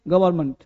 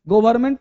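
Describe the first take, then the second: First: The first syllable is said like 'guh'. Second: The first syllable is said like 'go'. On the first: The speaker calls it right. "आपको बोलना है ग, not गो" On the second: The speaker calls it wrong. "गवर्नमेंट नहीं"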